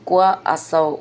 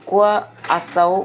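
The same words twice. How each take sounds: No difference in how they are said.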